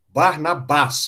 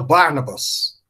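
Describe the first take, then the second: First: The stress is on the last syllable. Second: The stress is on the first syllable. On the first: "oxítono" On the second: "Em inglês passou para proparoxítona"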